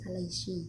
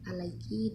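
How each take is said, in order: First: The consonant before the final vowel is sh. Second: The consonant before the final vowel is k.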